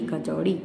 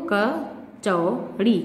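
First: Said in the usual way. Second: kachori drawn out slowly, syllable by syllable; slow sounding out. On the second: Shown as a demonstration. Teacher showing children the word kachori, sounded out slowly. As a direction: spell kachori out slowly for the kids. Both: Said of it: "और यहाँ पे चा पे है".

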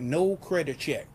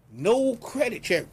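First: Said in the usual way. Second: No pitched high and drawn out slowly; stress on No. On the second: Shown as a demonstration. Pitchman stressing No to viewers. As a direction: lean hard on No, slower. Repeats the selling point.

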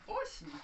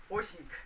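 First: Осенька sung out very high; high-pitched call. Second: Said in the usual way. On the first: Real, not acted. Calling the dog by name.

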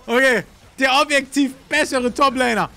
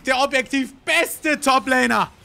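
First: Said in the usual way. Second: "beste" corrected slow and deliberate; slow correction. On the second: Real, not acted. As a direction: correct yourself slowly, leaning on "beste". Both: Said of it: "was sag ich?".

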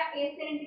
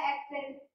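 First: ਐਸੈਂਟ said "esent" with no k sound; wrong pronunciation. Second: ਐਕਸੈਂਟ said "ek-sent" with the k sound kept; correct pronunciation. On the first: Teacher's example of a student saying ਐਸੈਂਟ without the k. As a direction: drop the k: "e-sent". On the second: Teacher's example of another student saying ਐਕਸੈਂਟ correctly, with the k. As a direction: keep the k: "ek-sent". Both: Shown as a demonstration. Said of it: "ਕਿਸੇ ਨੇ ਬੋਲਿਆ".

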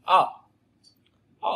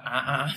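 First: Short throaty "Á", not the Vietnamese rising tone; abrupt English uh for "Á"; English Á from throat. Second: "Á" with a Vietnamese rising tone; repeated rising-tone Vietnamese "Á"; wrong, Vietnamese Á. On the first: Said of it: "Từ cổ họng nha". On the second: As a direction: demonstrate "Á" as the Vietnamese vowel, the mistake. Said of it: "Không phải Á Việt Nam mà". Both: Shown as a demonstration.

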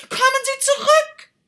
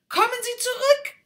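First: Even louder, much higher desperate yell; louder shout. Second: Much higher, loud call; shouting. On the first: Rocket yells again after the duck, louder still. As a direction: yell with everything you have. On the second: Rocket shouts after the departing duck, high and loud. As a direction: call her back. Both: Acted. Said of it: "schrie die Rakete".

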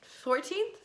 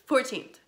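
First: Unsure rising question, high and softly said; high rising "Fourteenth?". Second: Settled falling statement; "Fourteenth" with a falling, final tune; confirming. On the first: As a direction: ask it as if checking the date. Checking the date aloud. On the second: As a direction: answer your own question with certainty. Confirming the date to herself. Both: Real, not acted.

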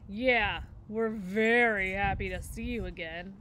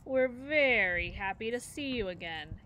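First: Louder, dopey copycat echo of his sister; little brother bear repeating his sister, louder. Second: Syrupy mock-sweet welcome; dripping sarcasm. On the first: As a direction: parrot her line like a tagalong kid brother. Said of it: "echoed the brother bear". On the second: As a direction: lay the fake friendliness on thick. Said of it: "Her voice was dripping with sarcasm". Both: A narrator's reading.

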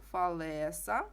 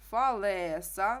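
First: Said in the usual way. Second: Фалеса, slow, leaning on the е in "ле"; stress on е. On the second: Shown as a demonstration. Teacher shows the class where the stress falls. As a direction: stretch Фалеса and land on ле. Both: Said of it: "наголос на е".

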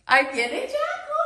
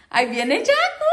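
First: Much higher, teasing sing-out; squeaky, playful announcement; high pet-talk. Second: Said in the usual way. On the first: Real, not acted. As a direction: pitch it way up to excite a bird. Repeats it to excite the parrot.

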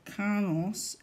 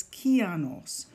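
First: Kanos said with two syllables, no "ee" after the K; mispronounced name. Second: Kianos with a clear "ee" after the K: kee-AH-noss; correct name pronunciation. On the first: Teacher mimicking the iPad getting the name wrong, mispronounced Kanos. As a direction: say Kanos, dropping the "ee" from Kianos. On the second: Speaker correcting how the iPad says the name, careful Kianos. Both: Shown as a demonstration. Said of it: "that's not how I say my name".

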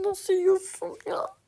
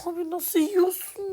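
First: Incredulous. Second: Said in the usual way. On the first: Real, not acted. Stunned at teammate's play.

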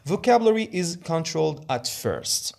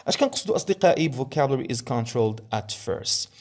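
First: Vocabulary is controlled at first read very slowly and higher, word by word; slow, deliberate read stressing vocabulary; slow slide read. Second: Said in the usual way. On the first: Shown as a demonstration. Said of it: "teacher reads slide point aloud". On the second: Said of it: "teacher quotes the point in explanation".

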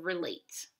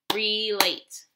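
First: Said in the usual way. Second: "Relate" split into two full beats, re and late; "Relate" with a full ree, then late; syllable by syllable. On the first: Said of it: "How many syllables do we hear". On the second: Shown as a demonstration. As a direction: sound out "Relate" in two loud, distinct syllables. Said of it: "we hear two syllables".

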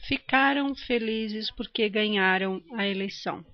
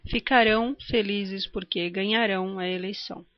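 First: "Ficaram", "ganharam" com força no CA e no NHA; tônica na penúltima. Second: "Ficarão", "ganharão" with stress on final RÃO; tônica na última. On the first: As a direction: stress the next-to-last syllable of "Ficaram" and "ganharam". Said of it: "a sílaba tônica é a penúltima". ("Ficaram" e "ganharam", acento na penúltima sílaba) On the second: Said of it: "a sílaba tônica é a última". ("Ficarão" e "ganharão", acento na última sílaba) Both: Shown as a demonstration.

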